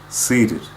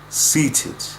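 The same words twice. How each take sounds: First: The T is a quick tap without burst. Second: The T is released with a burst of air.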